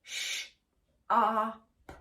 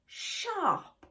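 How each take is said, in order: First: SHARP split into sh, ar, p; segmented phonics demo of "sharp"; sounded out. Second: SHARP blended into one word, high then falling. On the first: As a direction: say SH, AR, P as separate sounds. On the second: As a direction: say SHARP whole, starting high. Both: Shown as a demonstration. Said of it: "Three sounds".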